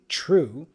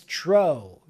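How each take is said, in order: First: The vowel is a close oo sound. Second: The vowel is an open oh sound. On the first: This is how the word is normally spoken. "we say true" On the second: This is how the word is sung in the song. "he opens the sound"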